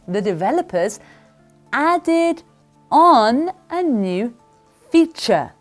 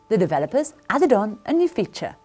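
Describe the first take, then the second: First: The sentence is spoken at a slower pace. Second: The sentence is spoken at a faster pace.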